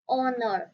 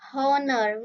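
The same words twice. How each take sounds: First: The word begins with a vowel, h silent. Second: The word begins with a pronounced h sound. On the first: The speaker calls it right. "H her is a silent. ... we say honor. The first sound is an ow sound" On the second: The speaker calls it wrong. "We do not say honor"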